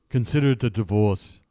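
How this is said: It is said in an Austrian accent.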